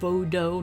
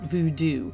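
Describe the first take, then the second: First: It is said the way the local guides said it. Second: It is said the common, familiar way. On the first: The speaker calls it right. "I believe is how they pronounced it" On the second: The speaker calls it wrong. "not voodoo"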